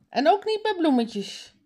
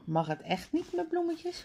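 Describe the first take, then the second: First: High called-out afterthought warning; calling after someone. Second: High, soft questioning voice. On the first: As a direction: call it after them, high-pitched. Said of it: "roept haar vader haar na". (hoog nageroepen) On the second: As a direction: ask it softly, pitched well up. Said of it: "vraagt Suzanne op straat". (zachte, hoge vraag) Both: A narrator's reading.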